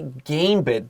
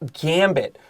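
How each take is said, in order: First: The first vowel is not a short 'a'. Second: The first vowel is a short 'a'. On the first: The speaker calls it wrong. "Don't say gambit" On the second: The speaker calls it right. "This has a short a"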